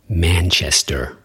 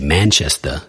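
First: It has a general American accent with a final R. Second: It has a New York accent with no final R. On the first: "guy from the United States who doesn't sound like he's from the East Coast would say" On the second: "in New York, if they would say Manchester, there's no R at the end"

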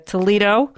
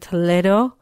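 First: The name is said with an American accent. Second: The name is said with a Spanish accent.

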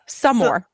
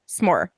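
First: An extra vowel sound comes between s and more. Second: The s joins straight onto more, no vowel. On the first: "you're saying it's a s'more. You are literally adding a full word into the word" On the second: "I'm saying it's a s'more"

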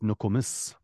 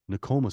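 First: The stress is on the last syllable. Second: The stress is on the middle syllable. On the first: The speaker calls it right. "Emphasis on the last syllable" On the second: The speaker calls it wrong. "Nokomis is not right"

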